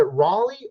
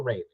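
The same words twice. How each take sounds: First: Raleigh said as RAH-lee; first pronunciation option. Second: Raleigh said as RAY-lee; second pronunciation option. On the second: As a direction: say Raleigh with "ray" as the first syllable. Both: Shown as a demonstration. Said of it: "Is it Raleigh or Raleigh".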